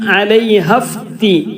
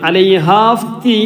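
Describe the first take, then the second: First: The vowel before f is short. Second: The vowel before f is long. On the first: The speaker calls it right. "നീട്ടാനുള്ള അക്ഷരത്തിന് ശേഷം സുക്കൂൻ വന്നാൽ" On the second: The speaker calls it wrong. "അലൈഹാഫ്തി എന്ന് വായിക്കൂല"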